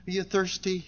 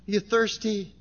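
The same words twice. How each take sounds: The two takes are said the same way.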